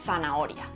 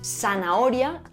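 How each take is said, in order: First: The first consonant is pronounced as a th sound. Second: The first consonant is pronounced as an s sound. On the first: "en lugar de" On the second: "era seseante ... no se hace distinción entre los fonemas s y z"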